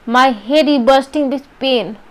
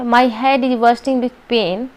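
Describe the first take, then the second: First: It is said with strong felt emotion. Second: It is said in a flat, neutral way. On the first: The speaker calls it right. "With emotions" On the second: The speaker calls it wrong. "Normal वे में आपने बोल दिया"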